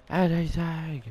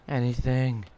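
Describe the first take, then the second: First: Loud, high-pitched mock plea; hammed-up, distorted holler; exaggerated calling out. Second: Loud call into an empty search; loud, exasperated appeal. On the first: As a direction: push it up high and loud in playful desperation. Repeats the call, more exaggerated. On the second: Real, not acted. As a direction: raise your voice, fishing for any result. Searching in vain, calling out.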